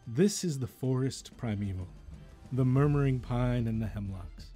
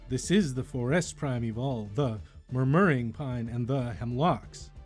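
First: Stresses fall near the start of each word. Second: Stresses fall on later parts of the words. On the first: The speaker calls it right. "Notice how the stressed accent is near the start of each section" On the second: The speaker calls it wrong. "The emphasis was on the wrong part of the word"

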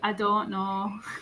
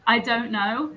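First: It is said in a northern English accent. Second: It is said in a fairly neutral English accent. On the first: "They say" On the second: "so I say"

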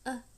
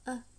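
No difference in how they are said.

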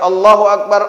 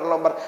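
First: It is said in full with every syllable clear. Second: It is rushed and cut down to lobar. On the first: The reciter pays attention to each word. The speaker calls it right. "Boleh tiga puluh tiga, tapi pas" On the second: The reciter is hurrying to reach a count. The speaker calls it wrong. "sumlah hamlah lobar"

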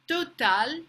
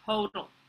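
First: The word is said with a French accent. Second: The word is said with an English accent. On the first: "how a French person might say it" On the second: "the pronunciation in English"

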